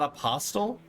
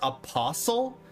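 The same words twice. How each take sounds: First: The t sound in the middle is pronounced. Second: The t sound in the middle is silent. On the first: The speaker calls it wrong. "Not apostle? ... I have always thought that it was apostle" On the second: The speaker calls it right. "it's supposed to be pronounced apostle? ... Like whistle or listen?"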